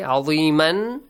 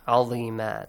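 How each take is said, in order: First: The word ends with an n sound. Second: The word ends with a long a vowel. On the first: The reading continues without stopping. "There is a tanween" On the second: The reader stops at the end of the word. "tanween fatha will be changed to? Alif mad"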